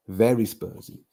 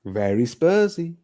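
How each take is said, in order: First: Said in the usual way. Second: Slower, higher mocking voice for a moaning rival fan; sneering Spurs fan impression, drawn out; mock Spursy fan. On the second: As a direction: drag it out in a put-on sneer. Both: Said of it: "'Cause that's how we sound".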